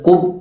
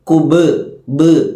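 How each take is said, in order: First: The final b stops cleanly without a bounce. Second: The final b ends with an echoing bounce. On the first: The speaker calls it wrong. "കുബ് എന്ന് ഓതാതെ" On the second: The speaker calls it right. "ഖുതുബിന്റെ അക്ഷരമായിട്ട് ... കുബ് ബ് എന്നോതി"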